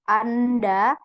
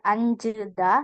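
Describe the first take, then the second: First: The word ends in da. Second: The word ends in jeda. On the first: "bukan anda" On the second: "bukan anjeda"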